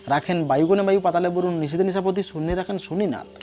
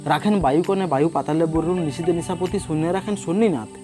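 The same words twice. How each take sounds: No difference in how they are said.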